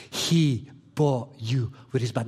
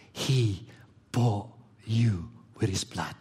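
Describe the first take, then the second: First: Said in the usual way. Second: Hushed, slow whisper. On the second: Shown as a demonstration. Preacher whispering to the congregation: slow whisper. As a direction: breathe it out like a secret. Preacher hushing a key phrase.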